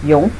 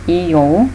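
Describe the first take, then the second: First: It is said fast as one syllable. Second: It is said slowly as two syllables. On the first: "if you say it really fast" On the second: "This sounds like ion"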